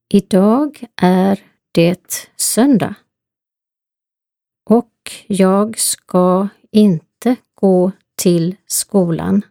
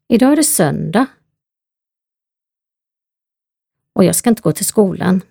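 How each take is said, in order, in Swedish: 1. Meningen talas långsamt. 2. Meningen talas snabbt.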